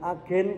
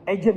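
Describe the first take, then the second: First: The word is pronounced the plain Indonesian way. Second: The word is pronounced the English way. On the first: It sounds ordinary, like a shop agent. The speaker calls it wrong. "Kalau dikatakan agen kayaknya kurang keren" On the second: It sounds cool and impressive. The speaker calls it right. "Tapi keren dibaca agent"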